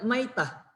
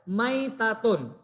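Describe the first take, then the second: First: The word ends with a soft h sound. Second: The word ends with a full tun sound. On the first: The reader stops at the end of the phrase. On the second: The reader continues without stopping.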